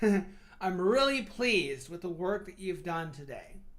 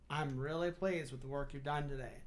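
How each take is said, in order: First: It sounds warm and enthusiastic. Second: It sounds flat and insincere.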